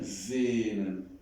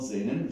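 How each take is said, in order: First: Sehnen on one long pure e; pure e, without I. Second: Sehnen with the e gliding into an i; wrong, with I glide. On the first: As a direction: hold the e in Sehnen, no glide to i. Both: Shown as a demonstration. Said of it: "With, without I".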